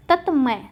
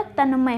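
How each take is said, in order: First: तत्मय with t before m; the mistaken t in तत्मय; wrong form तत्मय. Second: तन्मय with n before m; n, not t, in तन्मय; correct form तन्मय. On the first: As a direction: say तत्मय as tat-may. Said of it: "तत्मय नहीं होता". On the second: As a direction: say तन्मय as tan-may. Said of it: "तन्मय होता है". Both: Shown as a demonstration.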